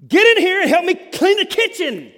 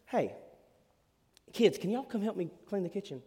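First: Much higher and louder demanding shout; harsh barking tone. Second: Softer, friendly request; kind gentle tone. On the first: Parent ordering the kids to clean, harsh loud shout. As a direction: bark it like a fed-up parent. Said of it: "There is a difference between". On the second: Parent asking the kids nicely to help, gentle and friendly. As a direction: ask sweetly, no pressure. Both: Shown as a demonstration.

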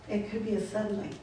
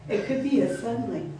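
First: Softer repeat of "It could be a suddenly"; hushed afterthought; quiet echo. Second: Said in the usual way. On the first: Shown as a demonstration. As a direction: let the words fall away softly as an echo. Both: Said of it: "repeated line".

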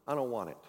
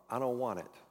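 First: "I don't want it" slurred into a single word, no gaps; run together as one word. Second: Said in the usual way. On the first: Shown as a demonstration. Preacher showing the congregation the stubborn refusal, run together. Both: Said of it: "Say it as one word".

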